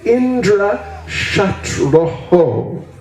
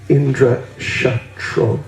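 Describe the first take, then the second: First: The last word ends with an extra 'ho' syllable. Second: The last word ends without the extra syllable. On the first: The speaker calls it right. "it should be Indra Shatroho" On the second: The speaker calls it wrong. "But they said Indra Shatro"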